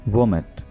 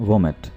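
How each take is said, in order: The two takes are said the same way.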